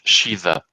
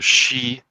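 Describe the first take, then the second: First: A th-like consonant follows the vowel. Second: It is one syllable with no th sound. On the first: This is the older pronunciation. "In earlier Irish" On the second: This is the modern pronunciation. "So she would be how it's pronounced"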